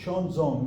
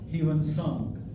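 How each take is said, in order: First: The name is said in its newer, exact form. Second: The name is said in its older, common form. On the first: The speaker calls it right. "the actual uh, pronunciation is Xuanzong" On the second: The speaker calls it wrong. "we call him Huan Sang, but uh, this uh, pronunciation is incorrect"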